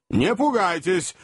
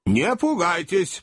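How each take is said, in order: First: Mild call. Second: Mild repeat. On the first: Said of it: "крикнул старый хозяин". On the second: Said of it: "повторил хозяин". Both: Acted.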